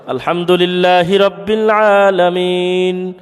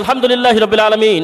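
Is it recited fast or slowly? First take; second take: slowly; fast. First: It is recited slowly and carefully. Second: It is recited quickly, rushed.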